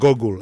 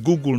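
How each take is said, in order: First: The first vowel is not a long oo sound. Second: The first vowel is a long oo sound. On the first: The speaker calls it wrong. "not Google" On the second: The speaker calls it right. "the word is Google"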